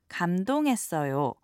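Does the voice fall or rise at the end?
fall. The voice falls at the end. It politely states that the speaker is touched. "drop the intonation and just simply say"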